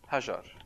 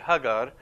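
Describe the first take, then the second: First: The middle consonant is a J sound. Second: The middle consonant is a hard G sound. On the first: This is how most other Arabic countries say it. "most other Arabic countries would say Hajar" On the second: This is how Egyptian Arabic says it. "in the Egyptian Arabic, they don't say je, they say the g"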